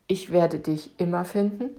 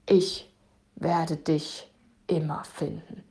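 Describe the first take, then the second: First: It is said in a warm, loving tone. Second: It is said in a threatening tone.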